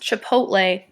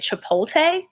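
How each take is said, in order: First: The T comes before the L sound. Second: The L and T sounds swap places. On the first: The speaker calls it right. "So it's pronounced Chipotle" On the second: The speaker calls it wrong. "he'll mix up the L and the T"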